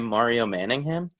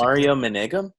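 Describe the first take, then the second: First: The surname ends with a 'ham' sound. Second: The surname ends with a 'gum' sound. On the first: The speaker calls it right. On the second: The speaker calls it wrong.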